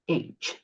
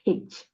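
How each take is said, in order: First: The letter name starts with a vowel sound. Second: The letter name starts with an h sound. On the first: The speaker calls it right. "Which letter? H" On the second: The speaker calls it wrong. "not H"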